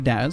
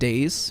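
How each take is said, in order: First: The name has the vowel of 'jazz'. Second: The name has the vowel of 'days'. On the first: This is the name's real pronunciation. The speaker calls it right. "It's actually Daz" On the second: This is how many others say the name. The speaker calls it wrong. "I know a lot of people say my name Days"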